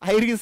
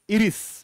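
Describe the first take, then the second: First: The word starts with an 'eye' sound. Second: The word starts with an 'ee' sound. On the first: "उच्चार काय आहे त्याचा? आयरिस आहे" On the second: "पण तिथं उच्चार काय करतात ते? इरिस"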